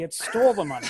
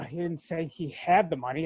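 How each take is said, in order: First: "stole" hit as the corrected word; stress on STOLE. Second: "had" picked out as the wrong word; stress on HAD. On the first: Contestant correcting the missed word, stress on "stole". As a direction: punch "stole" to correct the line. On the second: Contestant replaying the wrong answer, stress on "had". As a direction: lean on "had" while replaying the mistake. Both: Retold or imitated. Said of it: "I'm gonna be like".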